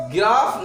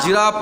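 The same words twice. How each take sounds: First: गिराफ starting with g as in give; the reading to avoid, गिराफ with hard g; hard g misreading. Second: जिराफ starting with a "j" sound; soft g. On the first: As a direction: say गिराफ opening on "gi". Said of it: "गिराफ नहीं पढ़ना है". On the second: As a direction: model जिराफ, g softened to j. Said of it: "क्या पढ़ना है". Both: Shown as a demonstration.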